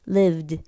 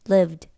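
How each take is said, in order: First: The final d is heavy and fully released. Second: The final d is light and soft. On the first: The speaker calls it wrong. "드 발음을 굉장히 무겁고 완전하게" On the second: The speaker calls it right. "이게 아니라"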